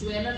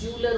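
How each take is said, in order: First: The word sounds like 'jweler' with an e vowel. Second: The word sounds like 'jooler' with an oo vowel. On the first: The speaker calls it wrong. "ज्वेलर नहीं होता है" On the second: The speaker calls it right. "जूलर होता है"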